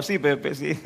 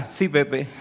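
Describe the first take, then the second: First: Sarcastic, laughing. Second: Mock sarcastic. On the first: Acted. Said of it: "Lenguaje actual". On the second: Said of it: "Dios ... nos dirá".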